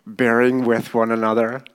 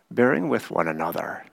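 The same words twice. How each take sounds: First: "Bearing with one another" firmer, held up at the end; emphatic repeat. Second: Said in the usual way. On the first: Shown as a demonstration. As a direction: repeat "Bearing with one another" with more weight, ending on a rise. Repeats verse after remarking it's hard.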